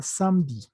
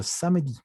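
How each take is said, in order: First: "samedi" in two syllables, sam-di; correct silent E. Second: "samedi" in three syllables, sa-me-di; sounded E. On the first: Teacher giving the correct form, E left silent. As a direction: drop the middle E of "samedi". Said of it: "lo correcto sería samedi". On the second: Teacher warning what students will hear, E sounded. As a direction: let the E be heard in "samedi". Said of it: "se les patina la E". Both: Shown as a demonstration.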